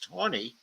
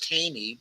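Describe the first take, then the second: First: The name departs from the spelling-based pronunciation. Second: The name follows a spelling-based pronunciation. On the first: The speaker calls it right. "but the pronunciation is Taney" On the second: The speaker calls it wrong. "I know it's spelled as Taney"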